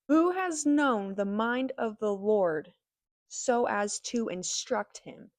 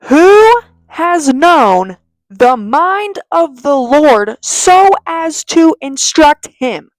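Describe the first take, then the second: First: It is said at normal volume. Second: It is said more loudly.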